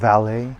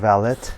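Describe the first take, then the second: First: The final T sound is silent. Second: The final T sound is pronounced. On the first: The speaker calls it right. "they don't pronounce the last letter of the word" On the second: The speaker calls it wrong. "it's not valet"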